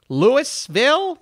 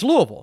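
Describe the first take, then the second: First: It is pronounced the way outsiders say it. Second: It is pronounced the way locals say it. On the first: The speaker calls it wrong. "Just sounds stupid" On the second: The speaker calls it right. "It's Louisville"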